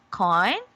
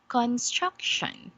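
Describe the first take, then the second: First: "construction" split syllable by syllable, with gaps; broken into syllables. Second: "construction" joined up, stressing STRUC; stress on second syllable. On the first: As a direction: say "construction" in separate pieces: con, struc, tion. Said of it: "how to syllabicate this word". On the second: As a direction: read "construction" as one word, weight on the middle syllable. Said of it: "where we put on the stress". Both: Shown as a demonstration.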